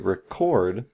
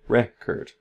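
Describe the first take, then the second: First: The stress is on the second syllable. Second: The stress is on the first syllable. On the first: It is a verb: to capture sound. "The stress is right before that k" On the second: It is a noun: a vinyl disc. "The biggest stress is on the beginning here"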